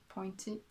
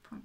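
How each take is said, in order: First: "pointed" read English-style as "POYN-tee", with an oy sound; anglicised POINTE. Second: "point" said the French way, "pwant", with a w glide; French POINTE. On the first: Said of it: "pronounce it pointed". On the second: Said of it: "because if I say point". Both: Shown as a demonstration.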